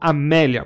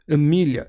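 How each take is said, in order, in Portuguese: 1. O nome é dito com sons portugueses. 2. O nome é dito com sons do inglês americano. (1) "eu não falo Amélia" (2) "na versão americana"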